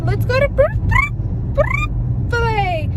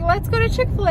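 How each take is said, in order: First: Put-on high, halting toddler voice stuck on Br-; toddler stumbling on the word. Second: Said in the usual way. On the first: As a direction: imitate a little kid failing to say Chick-fil-A. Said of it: "And he would like". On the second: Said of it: "we would be like".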